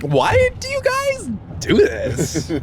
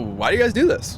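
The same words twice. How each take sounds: First: The question sounds dismissive and put-down. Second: The question sounds genuinely curious and interested. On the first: The asker looks down on the activity. The speaker calls it wrong. "Was the, the inflection like that?" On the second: The asker simply wants to know the reason. The speaker calls it right. "the inflection was uh, it's like"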